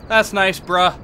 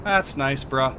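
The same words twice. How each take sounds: First: That's nice bruh said louder and brighter; louder repeat. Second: Said in the usual way. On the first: Real, not acted. Gamer repeating the jab at the ghost, louder. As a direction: punch it up the second time.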